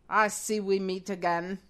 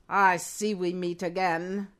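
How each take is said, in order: No difference in how they are said.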